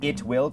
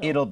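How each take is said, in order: First: Both words are said in full. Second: The words are contracted into one syllable. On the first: "สังเกตการออกเสียงตรงนี้นะครับ" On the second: "กลายเป็น"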